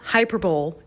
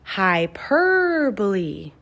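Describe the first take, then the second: First: The 'per' syllable is not stressed. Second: The 'per' syllable is strongly stressed. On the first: The speaker calls it wrong. "this word is not hyperbole. No, no, no" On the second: The speaker calls it right. "You say it like this. You exaggerate the per part"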